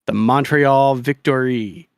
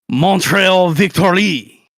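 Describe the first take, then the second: First: It is said in a plain English accent. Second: It is said with a French accent.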